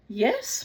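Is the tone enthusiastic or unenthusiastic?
enthusiastic. It is said in a normal, untroubled tone.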